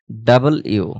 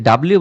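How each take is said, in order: First: "ডাবল ইউ" as two words, double and you; corrected letter W. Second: Said in the usual way. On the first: Shown as a demonstration. Teacher correcting the old habit, "ডাবল ইউ" in two clear parts. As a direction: separate "ডাবল" from "ইউ", no merged bliu. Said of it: "বলতে হবে". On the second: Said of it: "but এটা ডাব্লিউ না".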